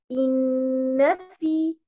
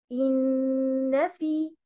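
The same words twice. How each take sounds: Both takes have the same delivery.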